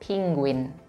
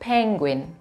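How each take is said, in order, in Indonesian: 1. Vokal pertama bunyinya seperti 'ee' di 'see'. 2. Vokal pertama bunyinya seperti 'e' di 'pen'. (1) "bukan penguin" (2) "tetap suaranya E"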